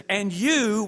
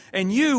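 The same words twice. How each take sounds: First: Said in the usual way. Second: "And you" with you hit higher and louder; emphatic you. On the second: Shown as a demonstration. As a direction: punch the "you" in "And you". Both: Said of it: "which is in the emphatic position".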